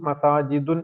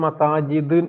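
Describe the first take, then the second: The two takes are said the same way.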